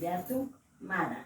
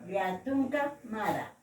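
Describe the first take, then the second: First: The first word ends without the final vowel. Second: The first word ends with a final a vowel.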